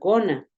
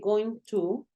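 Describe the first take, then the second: First: The words blend into one reduced word. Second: Both words are said fully and separately.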